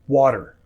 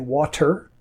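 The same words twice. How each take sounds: First: The middle T sounds like a soft D. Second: The middle T is a clear T. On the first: This is how most North Americans say it. "t will often sound like d" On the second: This is how some other parts of the world say it. "that might be a clearer T"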